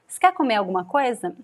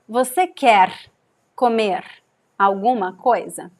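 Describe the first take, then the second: First: The first word is shortened and spoken fast. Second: The first word is pronounced fully and clearly. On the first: "And with reduction. ... I'm also speaking fast here" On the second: "this sentence without reduction"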